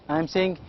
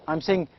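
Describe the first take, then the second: The two takes are said the same way.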